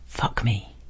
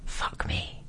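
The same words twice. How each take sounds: First: Softly murmured invitation; soft whisper. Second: Barely audible whisper; mouthed whisper. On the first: Whispered to the stranger in the cubicle, softly. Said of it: "I whisper". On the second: Flirting silently at a stranger across the bar, whispered. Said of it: "and mouthing". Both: A narrator's reading.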